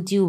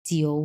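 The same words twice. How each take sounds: First: জিউ without the middle o; common mispronunciation. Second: জিও with the middle o sounded; correct pronunciation. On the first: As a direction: say জিউ, gliding straight from i to u. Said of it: "অনেকে বলে জিউ". (মাঝের ও বাদ দিয়ে জিউ) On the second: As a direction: say জিও, gliding from i into o. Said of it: "এটাকে আমরা বলবো". (মাঝের ও উচ্চারণ করে জিও) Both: Shown as a demonstration.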